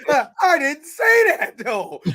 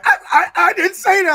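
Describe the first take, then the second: First: Higher, louder, slowed-down fake innocence; high mock denial. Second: Imitating a flustered stammer, much higher and louder; high stammering denial. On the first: Mimicking the denial for friends, high and drawn out innocence. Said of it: "He was like". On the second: To friends, mimicking Deadpool's flustered denial, high and stammering. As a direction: squeak out the denial like a caught kid. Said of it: "the way that he was like".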